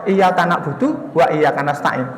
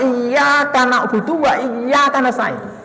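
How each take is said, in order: First: The y sound in iyyaka is short, single. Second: The y sound in iyyaka is held doubled. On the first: Your sunlight do we worship. The speaker calls it wrong. "Ini total salatnya batal" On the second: Only you do we worship. The speaker calls it right. "kita mesti membaca"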